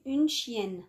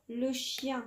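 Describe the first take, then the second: First: Une chienne slow, N clearly sounded; slowly, une chienne with a clear N at the end; feminine with N sounded. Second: Le chien with nasal ending, no N sounded; masculine form, N silent. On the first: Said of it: "نحولوه المؤنث". (une chienne ببطء مع نطق النون واضحة) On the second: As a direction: say le chien, N not pronounced. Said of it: "ça s'écrit avec N ... on ne le prononce pas". (le chien بدون نطق النون) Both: Shown as a demonstration.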